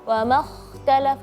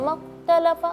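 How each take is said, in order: First: The kh sound is clearly heard. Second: The kh sound is barely heard. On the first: The speaker calls it right. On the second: The speaker calls it wrong.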